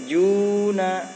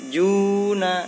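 Both takes have the same delivery.

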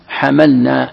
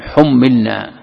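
First: It starts with an a vowel; single m. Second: It starts with a u vowel; doubled m. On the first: "بفتح الحاء مخففا" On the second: "وبضمها وكسر الميم مشددا"

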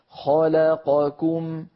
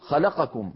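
First: All the vowels have equal length. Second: The vowels are rushed and clipped. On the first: The speaker calls it right. "لابد أن تسوى أزمنتها" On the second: The speaker calls it wrong. "ولا نقول خلقكم هكذا بسرعة"

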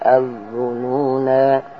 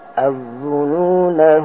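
First: The final vowel is long, with the phrase ending there. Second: The final vowel is short, running into the next word. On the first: The reading stops at this word. "tapi kalau berhenti" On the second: The reading continues without stopping. "Kalau dibaca terus"

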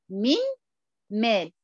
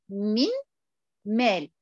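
The two takes are said the same way.

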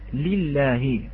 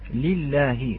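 Both takes have the same delivery.

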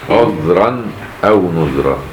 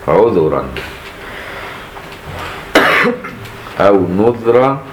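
First: No vowel follows the dh sound. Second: A u vowel follows the dh sound.

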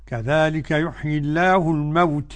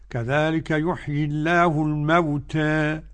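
First: The final vowel leans strongly toward 'e'. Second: The final vowel leans slightly toward 'e'. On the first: "الإمالة" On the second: "التقليل"

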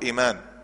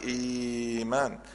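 First: The opening vowel is kept short, two beats. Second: The opening vowel is drawn out, about six beats. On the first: "بالقصر حركتين" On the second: "عند ورش يقول لك"

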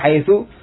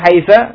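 First: The word ends with a short u vowel. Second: The word ends with a short a vowel. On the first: "kadang di dhamma" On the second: "kadang dengan fathah"

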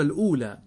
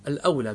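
First: The first syllable has a 'u' vowel. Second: The first syllable has an 'a' vowel. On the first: The speaker calls it wrong. "عندكم هنا مكتوبة الأولى، ... لكن هذا يبدو أنه غير صحيح" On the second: The speaker calls it right. "الأولى بفتح الهمزة وليس بضمها"

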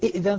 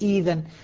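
First: A second glottal stop is pronounced before the dh. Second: The second glottal stop becomes a long ee vowel. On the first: "الهمزة الأولى مكسورة والثانية ساكنة، بدل" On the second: "صارت"

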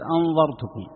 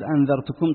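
First: The middle consonant is a heavy, emphatic dh. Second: The middle consonant is a plain, light dh. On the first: The speaker calls it wrong. "بالغ فيها ما الذي يحصل؟ تصير أنظرتكم" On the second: The speaker calls it right. "بدل ما تصير أنذرتكم"

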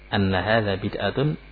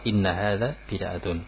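First: The first word begins with an 'a' vowel. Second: The first word begins with an 'i' vowel. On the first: The speaker calls it wrong. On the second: The speaker calls it right.

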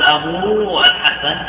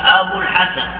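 First: The final vowel of abu is long. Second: The final vowel of abu is short. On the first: The waw is kept despite two silent letters meeting. The speaker calls it wrong. "ولا تقول أبو الحسن لأن الواو ساكنة" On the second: The waw drops to avoid two silent letters meeting. The speaker calls it right. "فتقول أبو الحسن"

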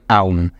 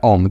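First: It is said with separate a, u, m sounds. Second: It is said as one smooth o vowel. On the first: "Hay profesores que lo pronuncian A-U-M" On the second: "se pronuncia Om"

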